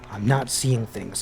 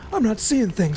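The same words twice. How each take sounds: First: It is read in the speaker's ordinary voice. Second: It is said in a put-on old man's voice.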